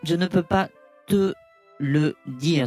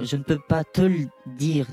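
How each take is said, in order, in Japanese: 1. ゆっくり、一語ずつ切れて言われています。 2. 速く、言葉がつながって言われています。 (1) "もう言葉一個ずつで言うとそうなんだけど" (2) "早く言うと"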